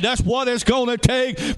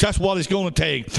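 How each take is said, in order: First: "That's what it's gonna take" pitched high and driven home; emphatic repeat. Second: Said in the usual way. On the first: Real, not acted.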